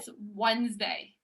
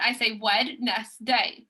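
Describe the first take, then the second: First: It is said the usual reduced way. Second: Every letter is sounded out as spelled. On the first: This is how it is normally said. "but it's Wednesday" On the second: This is how it is spelled. "whenever we I spell it, I say Wednesday"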